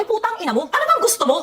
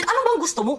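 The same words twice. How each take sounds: First: Exasperated outburst. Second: Said in the usual way. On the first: Real, not acted. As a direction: throw the question at her in anger. Exasperated scolding of Mikay.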